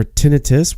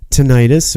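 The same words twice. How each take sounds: First: Tinnitus said as "TIN-ih-tus"; alternative pronunciation. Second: Tinnitus said as "tih-NIGHT-us"; variant pronunciation. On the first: Offering the other version, tinnitus with stressed first "TIN". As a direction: stress the first syllable of tinnitus, short I's. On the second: Naming an untreatable ailment, tinnitus with stressed middle "NIGHT". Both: Shown as a demonstration. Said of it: "tinnitus or tinnitus".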